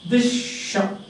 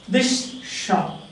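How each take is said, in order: No difference in how they are said.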